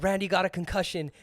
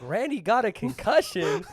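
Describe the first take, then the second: First: Said in the usual way. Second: Laughing, disbelieving question; retold disbelief with a laugh; incredulous echo. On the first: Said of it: "Lizzie's like". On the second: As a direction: repeat the news as a baffled question. Incredulous echo of the caller's news.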